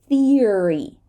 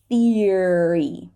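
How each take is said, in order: No difference in how they are said.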